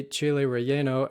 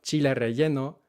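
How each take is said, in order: First: Chile relleno with English vowels and glides; American chile relleno. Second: Chile relleno with a ch and pure Spanish vowels; Mexican chile relleno. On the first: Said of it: "here in the U S". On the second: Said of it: "in Mexico". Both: Shown as a demonstration.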